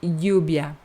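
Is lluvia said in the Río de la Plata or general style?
general. It is said in the general Spanish style.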